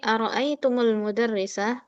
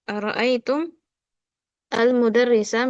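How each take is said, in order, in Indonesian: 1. Mim bersambung ke kata berikutnya dengan 'u'. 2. Mim mengakhiri kata, tanpa vokal sesudahnya. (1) "kita baca dengan harokat domah" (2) "Yang seharusnya mim sukun"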